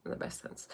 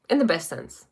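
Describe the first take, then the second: First: "In the best sense" whispered, unvoiced and far softer. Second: Said in the usual way. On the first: Shown as a demonstration. Coach echoing her own phrase to the viewers in a whisper.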